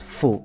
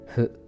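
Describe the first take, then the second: First: The consonant is a strong, clear f sound. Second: The consonant is a soft blend of f and h. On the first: The speaker calls it wrong. "sebenarnya enggak kontras fu" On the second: The speaker calls it right. "F dan H itu disatukan. Jadi masing-masing lima puluh persen"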